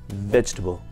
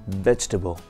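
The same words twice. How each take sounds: No difference in how they are said.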